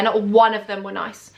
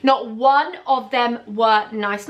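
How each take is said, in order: First: Said in the usual way. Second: NOT ONE OF THEM WERE NICE slowed right down, word by word; slow emphatic repeat. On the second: Real, not acted. Vlogger hammers home how unkind the managers were, "Not one of them were nice" slow and emphatic.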